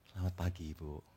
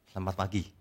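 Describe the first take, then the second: First: The greeting sounds warm and sincere. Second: The greeting sounds fake and theatrical.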